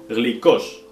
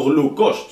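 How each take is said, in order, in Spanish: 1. La primera vocal suena como 'ee'. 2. La primera vocal suena como 'oo'. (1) "en griego moderno es glicos con Y" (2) "No glucos"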